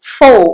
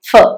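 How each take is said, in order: First: The word has a full, long vowel. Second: The word has a short, reduced vowel. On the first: "ശരിയായ രീതിയിൽ strong ആയിട്ട് ഉച്ചരിക്കുന്നത് ഫോ എന്നാണ്" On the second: "വീക്ക് ആയിട്ടുള്ള ഉച്ചാരണം ഫ ആണ്"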